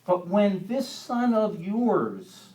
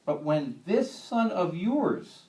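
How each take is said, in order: First: Slow, louder, contemptuous "this" held long; stress on this. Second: Slow, heavy weight on "this"; stress on this. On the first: Preacher repeating the son's words, slow scornful stress on "this". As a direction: lean hard on "this son of yours". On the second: Older son to father, slow scornful stress on "this". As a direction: drag out "this son of yours" with contempt. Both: Retold or imitated. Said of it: "I like the way he says this".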